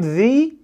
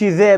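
First: The word is said with a long 'ee' vowel. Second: The word is said with a short 'uh' vowel. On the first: The speaker calls it right. "هقول ذي اند" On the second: The speaker calls it wrong. "ما اقولش ذا"

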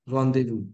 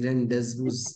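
First: It is said with French sounds and silent letters. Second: It is said letter by letter as written. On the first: The speaker calls it right. "the French words like rendezvous" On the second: The speaker calls it wrong. "which would for any would be rendezvous"

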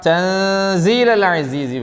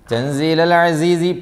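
First: The n sound is concealed into a nasal hum. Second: The n sound is pronounced clearly, not concealed. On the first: The speaker calls it right. "വേണം. ആ നിയമത്തിൻ്റെ പേരാണ് ഇഖ്ഫാ" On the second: The speaker calls it wrong. "പറ്റില്ല"

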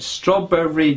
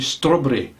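First: The three syllables are even in length. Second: The syllables are uneven in length. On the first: The speaker calls it right. "If you say strawberry jam, you'll get the right rhythm each time" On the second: The speaker calls it wrong. "don't say strawberry, because it's the wrong way of saying it"

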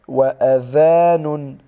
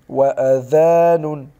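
No difference in how they are said.

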